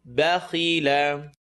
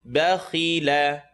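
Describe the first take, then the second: Both takes have the same delivery.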